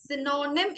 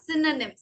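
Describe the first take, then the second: First: "Synonym" as si-NO-nim; wrong pronunciation. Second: "synonym" as SIN-uh-nim; correct pronunciation. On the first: Teacher showing what's unnecessary, mispronounced. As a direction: say "Synonym" with a long middle "no". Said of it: "എന്ന് പറയേണ്ട ആവശ്യം ഇല്ല". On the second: Teacher confirming the student's attempt, correctly pronounced. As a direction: say "synonym" with a short middle vowel. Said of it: "Yeah, synonym". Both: Shown as a demonstration.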